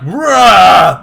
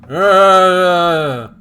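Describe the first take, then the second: First: It is a loud, forceful shout. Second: It is a quiet, subdued sound.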